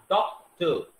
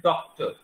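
First: doctor in two beats with a gap after डॉक; teacher separating the two syllables of doctor; syllable break. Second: Said in the usual way. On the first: Shown as a demonstration. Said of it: "बोल के देख लीजिए". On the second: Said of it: "फिर हम word बोलते हैं".

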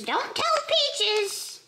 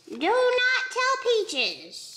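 First: Slow, high plea with "tell" stressed; playful secret warning. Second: Slow and high, "not" long and punched; stress on NOT. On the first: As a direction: drag out "Don't tell Peaches", leaning on "tell". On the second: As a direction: split it into "Do NOT tell Peaches", hitting "not" hard. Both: Pretend.

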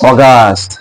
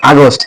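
First: অগাস্ট as "o-GAAST", long aa, lower; British pronunciation. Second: আগস্ট said "a-gost", o in the last syllable; local Bengali pronunciation. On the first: Teacher showing how the British say it, British pronunciation. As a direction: draw out the "gaa" of অগাস্ট. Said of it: "ওরা উচ্চারণ করে ব্রিটিশরা". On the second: Teacher contrasting our way, local pronunciation. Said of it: "উচ্চারণও করি". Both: Shown as a demonstration.

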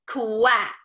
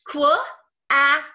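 First: Said in the usual way. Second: Qu-ack split into its sounds, then ack; sounding out. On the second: Shown as a demonstration. Teacher sounds out the word for her class, split apart. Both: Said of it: "do all the sounds real quick".

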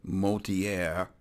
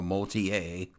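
First: "Motier" with an r-coloured last syllable, moh-tee-air; Motier ending in -air. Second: Slow "Motier" with the r dropped, moh-tee-ay; Motier ending in -ay. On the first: Player reporting back on the client, "Motier" said moh-tee-air. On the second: Player offering another pronunciation, "Motier" said moh-tee-ay. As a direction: say "Motier" French-style as moh-tee-AY, silent r. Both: Shown as a demonstration. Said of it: "however it's pronounced".

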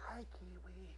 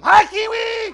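First: Soft unvoiced whisper; hushed greeting to a shy puppet. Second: Big high shouted greeting; loud rallying call to the crowd; yell. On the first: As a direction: breathe it so you don't scare him. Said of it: "Gotta whisper again". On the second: Pretend. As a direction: yell it out to the whole room. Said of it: "Everybody yell at him".

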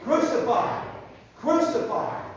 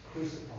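First: Loud, higher chanted shout; rally the crowd to yell along; yelling mob. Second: Said in the usual way. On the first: Acted. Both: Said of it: "They were yelling".

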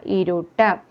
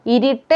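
First: ഇരുട്ട് with u in the middle, "iruttu"; correct vowel. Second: ഇരുട്ട് with i in the middle, "irittu"; wrong vowel. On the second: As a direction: show ഇരുട്ട് mistaken as "irittu". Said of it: "എന്നല്ല". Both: Shown as a demonstration.

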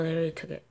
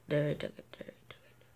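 First: Said in the usual way. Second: Whispered repeat; voiceless disappointed whisper. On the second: Real, not acted. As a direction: drop to a dejected whisper.

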